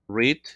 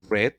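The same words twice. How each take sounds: First: The word does not sound like 'red'. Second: The word sounds like the colour 'red'. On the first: It is the present tense, to read. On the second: It is the past tense, read.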